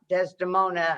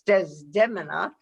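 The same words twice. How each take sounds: First: The name has its familiar, traditional pronunciation. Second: The name has a less familiar, alternative pronunciation. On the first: The speaker calls it wrong. "not Desdemona as we had been raised" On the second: The speaker calls it right. "correct pronunciation"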